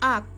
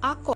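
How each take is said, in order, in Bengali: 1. শেষ ব্যঞ্জনটি ঝাঁকুনি ছাড়াই সাধারণভাবে থেমে যায়। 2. শেষ ব্যঞ্জনটি প্রতিধ্বনিত ঝাঁকুনি দিয়ে ছেড়ে দেওয়া হয়। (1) "এটা যদি সাধারণভাবে পড়া হতো" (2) "এটা কল করা করে পড়তে হচ্ছে"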